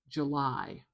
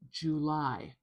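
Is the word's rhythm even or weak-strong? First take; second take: weak-strong; even. First: The first syllable is weak, the second strong. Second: Both syllables are full and evenly weighted. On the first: "really like having a strong syllable, like July" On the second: "it does make it much more even, like July"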